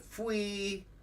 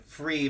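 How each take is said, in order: First: The R sound is weak, almost missing. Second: The R sound is clearly pronounced. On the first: The speaker calls it wrong. "The other one sounded like fui" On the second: The speaker calls it right. "You can hear the free versus the fui"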